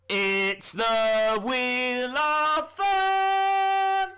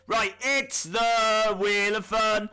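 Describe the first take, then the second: First: Very slow, drawn-out, higher game show call, louder; game show announcer. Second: Mock announcer. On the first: Acted. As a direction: stretch every word like a TV host. Grand reveal of the wheel. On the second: Announcing the game segment.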